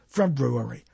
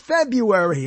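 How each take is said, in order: First: The first R is clearly pronounced. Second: The first R is dropped from the word. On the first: The speaker calls it right. "There's an R" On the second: The speaker calls it wrong. "The R is silent"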